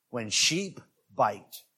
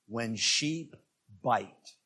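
First: "When Sheep Bite" drawn out slowly, each word weighed; slow emphatic restating of "When Sheep Bite"; slow repeat of title. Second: Low, quiet reading of the title; title read low with a pause after "Sheep". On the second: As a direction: announce "When Sheep Bite" low and soft, a pause after "Sheep". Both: Shown as a demonstration. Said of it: "The title was".

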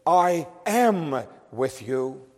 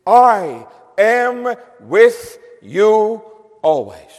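First: "I am with you" with "am" leaned on, drawn out; emphatic quote. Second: "I am with you always" with "I" hit loud and held long; emphatic quote. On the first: Preacher stressing Christ's presence to the congregation, slow stress on am. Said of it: "And again, very emphatically". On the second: Preacher reading Christ's promise to the congregation, slow and emphatic. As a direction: stress on "I", slow, each word weighed. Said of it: "Christ here makes a very emphatic statement". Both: Shown as a demonstration.

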